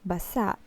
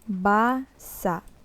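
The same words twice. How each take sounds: First: The first syllable is said short and quick. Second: The first syllable is drawn out long. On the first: It means wet. "if we will pronounce it more fast" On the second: It means to read. "We prolong this part, ba"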